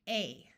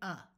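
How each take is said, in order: First: The vowel is long, like the letter name. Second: The vowel is short and reduced, like 'uh'. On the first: "we are going to use the vowel's long sound" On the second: "sometimes when we're in a rush, we wind up saying"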